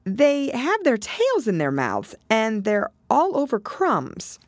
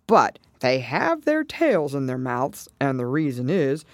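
First: High, slow recollection; Alice. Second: Lightly voiced turtle, measured explanation; Mock Turtle. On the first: Acted. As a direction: recall it slowly in a high girl's voice. Alice voiced, recalling whiting to Turtle. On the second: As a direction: confirm it in a lightly acted turtle voice. Mock Turtle voiced, confirming Alice's words.

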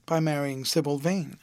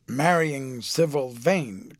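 First: Said in the usual way. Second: Slow, drawn-out disbelieving cry of "Marrying"; perplexed amazement. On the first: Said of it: "cried Lord Henry". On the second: A narrator's reading. Lord Henry echoes Dorian's news, slow amazed cry. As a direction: stretch "Marrying" out in stunned disbelief. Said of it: "cried Lord Henry ... perplexed amazement".

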